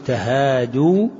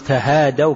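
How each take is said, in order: First: The vowel before the final w is u. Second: The vowel before the final w is a. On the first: It tells people to exchange gifts. "واو الجماعة ينبغي أن يسبق الضم" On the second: It reports that a group exchanged gifts. "كأنك تحكي عن جماعة"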